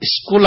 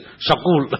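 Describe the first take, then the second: First: The word begins with a tight 'sk' cluster. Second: The word begins with 'shak', a vowel inserted. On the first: The standard way of saying it. The speaker calls it right. "वो स्कूल हम बोलते हैं" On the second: The way Punjabi speakers say it. The speaker calls it wrong. "वो लोग स्कूल नहीं बोलते, शकूल"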